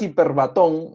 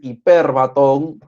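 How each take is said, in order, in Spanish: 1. El acento cae en una sílaba distinta de 'per'. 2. El acento cae en la segunda sílaba, 'per'. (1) "no le digas hiperbatón" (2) "la tilde está en la E, es hiperbatón"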